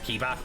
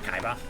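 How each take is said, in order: First: The first vowel sounds like 'ee'. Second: The first vowel sounds like 'eye'. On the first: The speaker calls it right. "it's Kiba" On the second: The speaker calls it wrong. "not Kaiba"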